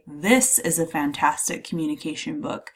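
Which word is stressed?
this. The stress falls on the word this. This one book in particular is meant. "I'm really emphasizing this one book in particular"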